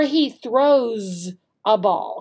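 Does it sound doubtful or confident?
confident. It sounds sure and approving.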